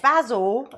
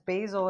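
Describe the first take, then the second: First: The word is said the British way. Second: The word is said the North American way. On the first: "if I'm thinking of Faulty Towers" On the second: "if I'm being very North American"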